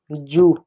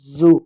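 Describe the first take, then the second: First: जू with a plain hard j, like English joo. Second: जू said with a buzzing z, like English zoo. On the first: Teacher showing kids the Hindi word for louse, plain j. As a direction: say जू with the ordinary ज sound, not z. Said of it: "जू क्या होता है". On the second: Teacher writing the word for zoo, buzzing z sound. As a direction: say जू with ज़, teeth close and humming. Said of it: "जू का मतलब होता है चिड़ियाघर". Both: Shown as a demonstration.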